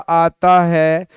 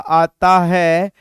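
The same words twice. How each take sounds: Both takes have the same delivery.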